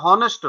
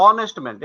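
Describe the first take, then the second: First: হনেস্ট with a breathy h sounded at the start; mispronounced honest with h; wrong h in honest. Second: অনেস্ট man with the h dropped, starting on a bare vowel; honest man, silent h. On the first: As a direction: voice the h in হনেস্ট to show the mistake. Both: Shown as a demonstration. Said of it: "এটা হনেস্ট নয়".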